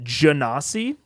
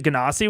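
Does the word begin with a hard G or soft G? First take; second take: soft G; hard G. First: The word begins with a soft J sound. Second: The word begins with a hard G sound.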